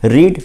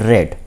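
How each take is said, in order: First: The vowel is long, as in 'reed'. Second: The vowel is short, as in 'red'. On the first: This is the present form of the verb. "First" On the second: This is the past participle form of the verb. "Third form"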